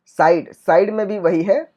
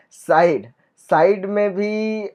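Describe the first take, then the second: First: Said in the usual way. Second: साइड spoken slowly with a laugh, the आई drawn out; साइड slowed down for learners; slow laughing demo. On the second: Shown as a demonstration. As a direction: stretch साइड slowly through a chuckle. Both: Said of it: "आई के बाद D है".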